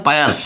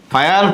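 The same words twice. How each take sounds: First: ফায়ার said with a p in place of the f; mispronounced as "payar". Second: Said in the usual way. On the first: Shown as a demonstration. Teacher giving students a memory trick for fire algae, ফায়ার mispronounced with a p. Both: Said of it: "যারা ধরো উচ্চারণ ভালো পারবে না".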